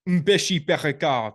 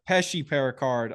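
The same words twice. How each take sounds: First: The name is said in a French accent. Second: The name is said in a plain accent.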